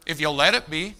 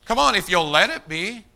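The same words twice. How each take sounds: First: Said in the usual way. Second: If you'll let it be pressed harder with a rising push; emphatic repeat. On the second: Shown as a demonstration. Preacher urging the congregation, pushing the repeated line. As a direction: drive the line home the second time.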